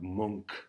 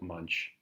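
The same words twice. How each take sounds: First: The name has a Swedish pronunciation. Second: The name is read as English spelling. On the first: The speaker calls it right. "He's a Swede, so different pronunciation" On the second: The speaker calls it wrong. "I know it looks like Munch, but that's not how you say it"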